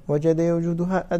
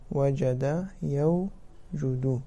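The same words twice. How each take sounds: First: Said in the usual way. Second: وجد يوجد stretched out syllable by syllable, very slow; slow, deliberate teacher's demonstration; slow drilled demo. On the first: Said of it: "teacher repeats the verb form". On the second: Shown as a demonstration. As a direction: spell out وجد يوجد slowly for the class. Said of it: "teacher drills the verb form".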